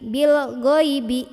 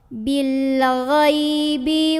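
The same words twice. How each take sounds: First: The gh is said as a plain hard g. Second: The gh is a throaty sound without air. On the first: The speaker calls it wrong. "huruf gha yang dibaca dengan G ... itu keliru" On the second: The speaker calls it right. "gha ini dari tenggorokan paling luar"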